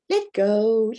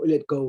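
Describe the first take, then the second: First: It is said in a soft, friendly tone. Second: It is said in a stern, commanding tone. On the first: This is a polite request. "I don't say" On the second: This is a firm command. "I immediately automatically change my voice and go"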